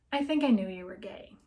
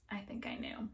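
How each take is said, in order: First: Said in the usual way. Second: Soft, breathy whisper, almost to herself; muttered quietly. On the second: Acted. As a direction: whisper the admission to yourself. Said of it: "She muttered quietly".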